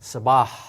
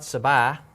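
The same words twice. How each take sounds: First: The final H sound is clearly heard. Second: The final H sound is silent. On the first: The speaker calls it right. "but sabah, and that H has to be heard" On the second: The speaker calls it wrong. "this is not sabah"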